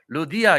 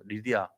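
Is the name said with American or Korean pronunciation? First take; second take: Korean; American. First: The name starts with an 'oo' vowel, Korean-style. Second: The name starts with an 'ee' vowel, English-style. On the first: Americans would not understand it. The speaker calls it wrong. "미국 가가지고 루디아 이러면요 못 알아들어요" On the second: Americans would understand it. The speaker calls it right. "리디아 해야 알아들어요"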